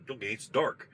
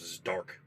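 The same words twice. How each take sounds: First: "dark" lifted in a questioning rise; pushing buddy echoing. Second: Low, short and plain: "It's dark."; flat, blunt coal miner. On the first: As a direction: repeat "it's dark" as if prodding for more. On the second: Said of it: "All the guy said". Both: Retold or imitated.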